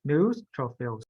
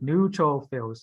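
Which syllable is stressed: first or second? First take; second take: first; second. First: The stress is on the first syllable. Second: The stress is on the second syllable. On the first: The speaker calls it right. "It's the first letter. New" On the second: The speaker calls it wrong. "you put in the pronunciation on the second"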